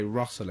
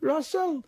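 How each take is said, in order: First: Said in the usual way. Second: High-pitched Geordie-sounding call; attempted Scottish gone Geordie. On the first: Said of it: "I can never say Russell in my voice". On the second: Shown as a demonstration. Asked to try his own name, botched Geordie-like accent. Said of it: "That was Geordie".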